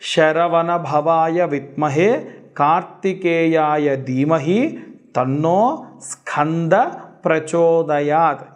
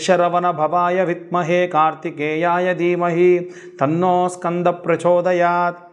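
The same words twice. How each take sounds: First: The mantra is recited at a slow pace. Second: The mantra is recited at a fast pace. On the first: "కొంచెం చిన్నగా చెబుతాను" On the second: "ఫాస్ట్గా చెప్పాను"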